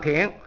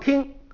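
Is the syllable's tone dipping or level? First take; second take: dipping; level. First: The syllable has a low dipping tone. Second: The syllable has a high level tone. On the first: "这个听字就唱赏声，就唱三声" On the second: "一声字不动就唱听"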